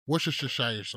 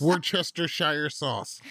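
First: Worcestershire slurred into WOR-shuh-shuh-shire; letters skipped. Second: Worcestershire slowly sounded out as WOR-chester-shire; every letter pronounced. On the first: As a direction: drop the "chester" from Worcestershire, shushing through it. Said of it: "Everybody just said Worcestershire". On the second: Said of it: "You are skipping mad letters". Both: Shown as a demonstration.

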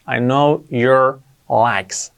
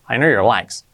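First: Slow, word-by-word English example; drawn-out model sentence, pauses between words; slow teaching model. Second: Said in the usual way. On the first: Shown as a demonstration. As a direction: space out each word for learners. Teacher repeats example slowly for learners.

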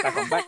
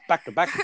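First: Squeaky high joke. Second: Said in the usual way. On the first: Real, not acted. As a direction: voice jumps way up on back.

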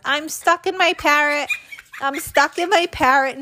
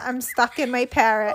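First: Put-on high, panicky child's cry of alarm; panicked shout. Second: Fading panic. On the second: Retold or imitated. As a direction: let the alarm die down into a whimper. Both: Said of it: "I panicked and shouted".

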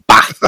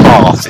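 First: "bath" with a short flat northern "a", rhyming with "math"; flat vowels. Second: "bath" with a long open "ah", like "bahth"; long southern vowel. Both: Shown as a demonstration. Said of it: "we have flat vowels".

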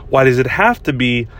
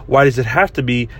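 The two takes are said the same way.

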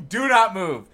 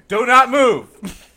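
First: Breaking into laughter mid-order; laughing. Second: Loud, drawn-out police order; each word slow and forceful; slow loud cop command. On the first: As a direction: command spoiled by a laugh. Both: Pretend. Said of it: "See, that was better than him".

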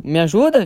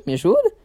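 First: Said in the usual way. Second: Pleading. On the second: Retold or imitated. Son begs mom for help.

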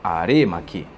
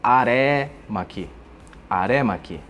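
First: "aremaki" with a closed "ê", as in "arê-maki", lower; correct pronunciation. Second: "aremaki" with an open "é", as in "aré-maki"; common mispronunciation. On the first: Teacher correcting the practitioners' error, closed-vowel pronunciation. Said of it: "o correto seria". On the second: Teacher imitating practitioners' error, open-vowel mispronunciation. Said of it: "escutamos praticantes de artes marciais coreanas produzir". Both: Shown as a demonstration.

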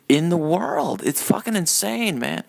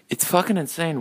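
First: Lightly put-on Biden impression, pitched up; hint of an exasperated elder statesman, higher voice. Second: Said in the usual way. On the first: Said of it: "my, uh, Biden impression".

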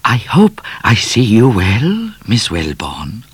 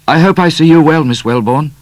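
First: Higher, smooth bowing cat; a polite cat paying respects; lightly voiced suave cat; courtly cat. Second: Higher, louder blurted greeting; a nervous young man blurting it; sudden young man. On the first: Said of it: "The cat bowed and said". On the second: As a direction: blurt the cat's words out. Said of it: "said Midnight suddenly". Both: A narrator's reading.

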